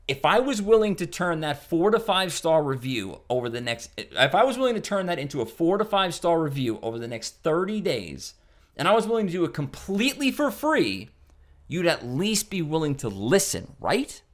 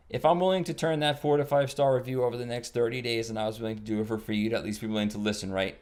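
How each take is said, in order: First: Higher, lively, persuasive read; confident engaged pitch. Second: Flat bored pitch. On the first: Caller pitching the owner with conviction. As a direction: sell it with energy and belief. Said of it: "See the difference?". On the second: Caller reading the script flat to an owner. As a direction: read it like a tired cable guy. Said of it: "if I say it like this". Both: Shown as a demonstration.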